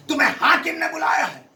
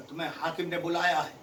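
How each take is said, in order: First: Higher, louder official command; loud summons. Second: Lower, softer first take; soft summons. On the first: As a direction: announce the governor's call firmly. (بلند آواز میں حکم) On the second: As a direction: say it quietly, almost to yourself. (دھیمے لہجے میں حکم) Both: Shown as a demonstration. Repeats summons softly then loudly.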